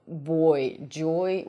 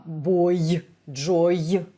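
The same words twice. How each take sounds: First: Said in the usual way. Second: Put-on "boy", "joy" with a sharp extra y sound at the end; Russian-accented ending. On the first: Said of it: "when we try to say". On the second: Shown as a demonstration. Teacher showing Russian learners' mistake, over-sharp final y. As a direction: push a hard y onto "boy" and "joy". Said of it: "we usually pronounce them as".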